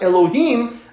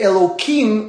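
First: The middle consonant is an h sound. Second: The middle consonant is a k sound. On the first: The sacred name is said as it is. "and not Elohim" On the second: The sacred name is avoided outside of reading scripture. "just like we say Elohim"

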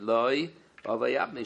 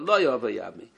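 First: The words are split apart by pauses. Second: The words flow together without a pause. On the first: The phrase sounds like a different statement. The speaker calls it wrong. "she was saying word by word" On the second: The phrase keeps its intended meaning. The speaker calls it right. "say together"

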